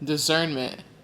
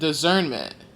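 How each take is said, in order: The two takes are said the same way.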